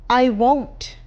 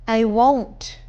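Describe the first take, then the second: No difference in how they are said.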